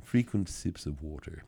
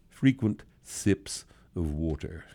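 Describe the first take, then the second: First: Quiet, savoring parody of a health tip; softer mocking repeat. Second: Slow, sneering parody of a health tip; mocking prissy advice. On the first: Host softly repeating the slogan he enjoys mocking. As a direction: say the fussy slogan again, under your breath. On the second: Host mocking bottled-water advice in a slow prissy voice. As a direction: drag it out like a fussy wellness slogan. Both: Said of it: "I love it when I say it like that".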